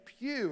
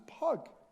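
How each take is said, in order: First: The name ends in a long oo sound. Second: The name ends in a hard g sound. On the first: The speaker calls it right. "a good Welsh name" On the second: The speaker calls it wrong. "mistakenly pronounced as Pug"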